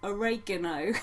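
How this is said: It is said with an American pronunciation. The speaker calls it wrong. "They say it funny"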